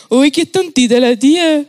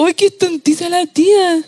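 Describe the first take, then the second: First: Lightly voiced teasing little boy; a hint of a smug kid; mocking child. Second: Lightly voiced teasing little boy, retold; a touch of a smug five-year-old; mocking child. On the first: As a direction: toss it off like a cheeky five-year-old. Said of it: "un niñito me dijo". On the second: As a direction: quote the cheeky kid again. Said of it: "Un pendejo de cinco años".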